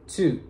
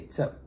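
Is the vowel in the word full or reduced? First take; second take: full; reduced. First: The word has a full, clear vowel. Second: The word has a short, weak vowel. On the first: "in its full pronunciation" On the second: "when we want to reduce that word"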